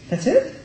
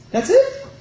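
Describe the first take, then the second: First: Rhetorical question. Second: Incredulous high question. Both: Acted.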